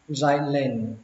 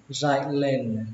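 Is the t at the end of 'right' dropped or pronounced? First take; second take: dropped; dropped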